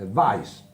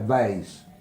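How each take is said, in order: First: The word is said the German way. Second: The word is said the English way. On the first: The speaker calls it right. "è Weiss" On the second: The speaker calls it wrong. "non è Weiss"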